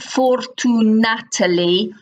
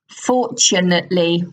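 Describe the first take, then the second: First: The middle consonant is a plain t sound. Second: The middle consonant is a ch sound. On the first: The speaker calls it wrong. "it's not fortunately" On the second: The speaker calls it right. "it's ch fortunately"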